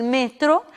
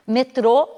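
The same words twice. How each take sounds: First: Metro stressed on ME; Spanish pronunciation. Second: Metrô stressed on TRÔ; Portuguese pronunciation. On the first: Teacher giving the Spanish word, first-syllable stress. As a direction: hit ME in metro. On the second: Teacher giving the Portuguese word, final stress. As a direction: land on the end of Metrô. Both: Shown as a demonstration. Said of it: "em espanhol se diz".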